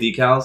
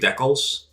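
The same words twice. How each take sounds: First: It is said with an American pronunciation. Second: It is said with a Canadian pronunciation. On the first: This is how people in the US say it. "we in the U S say decals" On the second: This is how Canadians say it. "they're Canadian. They say decals"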